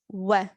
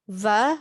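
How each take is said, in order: First: It starts with rounded lips, a 'w' glide. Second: It starts with lip-and-teeth 'v' friction. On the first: The speaker calls it right. "We have to say wa" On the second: The speaker calls it wrong. "This is not correct"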